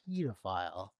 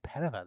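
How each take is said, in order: First: It is said with a British pronunciation. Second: It is said with an American pronunciation. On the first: "they say pedophile" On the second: "in the U K they don't say pedophile"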